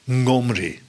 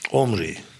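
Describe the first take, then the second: First: The name begins with an ng-like sound. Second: The name begins directly with a vowel. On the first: "Men zegt dat het onze NG-klank is" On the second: "in het moderne Hebreeuws spreekt men hem überhaupt niet meer uit"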